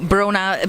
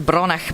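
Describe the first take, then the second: First: The name ends plainly on an open vowel. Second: The name ends with a Scottish throaty sound. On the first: "maybe not Brona" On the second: "I'm probably going to say it a bit Scottish"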